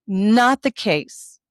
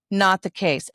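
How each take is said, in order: First: Each word dragged out and weighted, NOT leaned on hardest; drawn-out "Not the case", stress on NOT; slow emphatic denial. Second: Said in the usual way. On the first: Shown as a demonstration. Correcting the story, mom slows down and stresses NOT.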